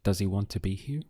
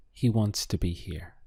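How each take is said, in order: First: "Does he want to be here" quick, rising on "here"; fast English question tune climbing to "here"; question intonation. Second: "He wants to be here" falling at the end; statement intonation. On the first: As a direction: ask it briskly, lifting "here". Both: Shown as a demonstration. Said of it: "ask that as a question".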